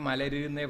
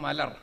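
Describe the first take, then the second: First: The word ends with a short u vowel. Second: The word ends with the r consonant. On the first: This is the older form of the word. "പഴയ കാലത്താണെങ്കിൽ മലരുന്നേ പറയാൻ പാടുള്ളൂ" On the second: This is the form used today. "എന്താ ഇപ്പം മലർ അല്ലേ?"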